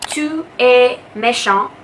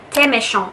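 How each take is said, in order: First: Tu and es are said as two separate words. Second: Tu and es blend into one word. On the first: "instead of saying" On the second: "blends together to become one word instead of two"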